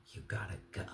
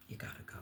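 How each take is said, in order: First: "you gotta go" dropped low and quiet; a quiet, final verdict; firm, falling. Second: "You gotta go" almost breathed, much softer; near-whispered echo. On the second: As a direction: fade it out like a last word. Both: Shown as a demonstration.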